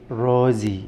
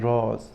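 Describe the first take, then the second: First: The final E is sounded as an extra syllable. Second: The final E is silent, one syllable only. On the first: The speaker calls it wrong. "don't say rosy, that's gonna be wrong" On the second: The speaker calls it right. "we don't pronounce the letter E at the end of the word"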